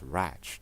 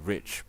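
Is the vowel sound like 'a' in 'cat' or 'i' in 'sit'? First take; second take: a in cat; i in sit. First: The vowel sounds like the a in cat. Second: The vowel sounds like the i in sit. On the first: "but it's ratch" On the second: "It's the same word. It's basically rich"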